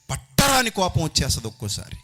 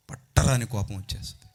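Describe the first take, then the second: First: First take higher and louder, pushed hard; raised preaching voice. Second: Said in the usual way. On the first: Real, not acted. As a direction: throw the line out with force.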